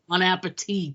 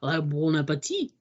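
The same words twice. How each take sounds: First: It is said flatly with a plain English accent. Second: It is said with an exaggerated French accent. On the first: "There's no accent" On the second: "he doesn't say it with like"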